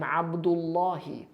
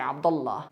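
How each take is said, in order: First: The name ends with a final vowel. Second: The name ends without a final vowel. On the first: "full vocalization" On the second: "they usually say Abdullah"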